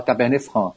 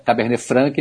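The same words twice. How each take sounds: First: Cabernet Franc with throaty r, silent c; French pronunciation. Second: Cabernet Franc with a sounded k, "fran-ki"; Portuguese-style pronunciation. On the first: Expert gives the original, Cabernet Franc the French way. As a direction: end Cabernet Franc on nasal "frã". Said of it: "o francês fala Cabernet Franc". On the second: Expert allows the local version, Cabernet Franc as "franki". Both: Shown as a demonstration.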